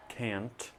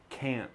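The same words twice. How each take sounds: First: "can't" with a crisp released T, the wrong way; wrong full T. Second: "can't" ending in a throat stop, no T; glottal T. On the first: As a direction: hit the final T of "can't" clearly. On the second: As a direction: say "can't" swallowing the T. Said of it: "not can't". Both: Shown as a demonstration.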